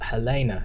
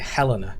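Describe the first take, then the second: First: The name is pronounced the American way. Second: The name is pronounced the English way. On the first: "in America they say Hel- Helena" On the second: "in England we say Helena"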